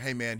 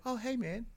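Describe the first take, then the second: First: Said in the usual way. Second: Much higher, bright switched-on friendliness; sudden friendly blacksmith. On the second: Retold or imitated. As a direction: flip instantly to cheerful.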